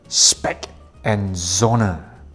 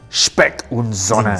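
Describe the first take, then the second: First: The name is said with English pronunciation. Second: The name is said with German pronunciation.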